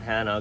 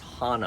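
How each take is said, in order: First: The first vowel is a short 'a' as in 'cat'. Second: The first vowel is an open 'ah' sound. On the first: The speaker calls it wrong. "It's not Hannah" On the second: The speaker calls it right. "it's pronounced Hana"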